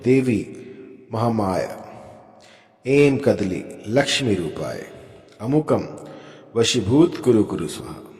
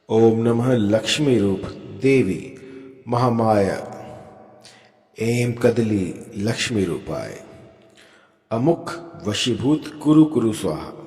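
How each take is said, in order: First: The mantra is said fast. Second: The mantra is said slowly.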